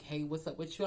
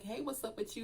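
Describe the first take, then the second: First: It is said in a put-on deep voice. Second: It is said in an ordinary voice. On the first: A tall man is speaking. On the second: The narrator herself is speaking.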